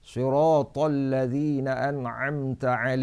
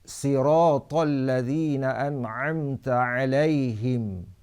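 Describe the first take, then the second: First: The first sound is a heavy emphatic s. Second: The first sound is a plain light s. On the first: "membaca dengan sod" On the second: "dengan sin"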